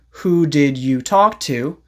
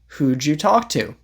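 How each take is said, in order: First: The word did is said in full. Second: The word did is contracted onto who. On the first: "And instead of saying" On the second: "You can say"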